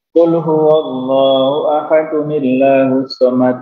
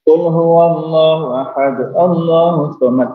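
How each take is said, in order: First: Ahad ends in -un, linked into the next word. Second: Ahad ends stopped, with the next word restarted. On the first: The speaker calls it right. "itu benar" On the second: The speaker calls it wrong. "Itu salah"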